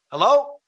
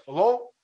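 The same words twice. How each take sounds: First: High, loud questioning hello; raised voice, rising at the end; calling out. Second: Imitating a muffled reply through a door; high, questioning muffled hello. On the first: Acted. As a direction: call warily through a closed door. Calling to unknown knocker at door. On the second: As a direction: answer as the muffled stranger outside. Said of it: "like a muffled voice".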